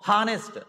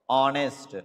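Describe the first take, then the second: First: The word begins with a sounded h. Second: The word begins with a silent h. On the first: The speaker calls it wrong. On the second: The speaker calls it right. "as if the H is silent"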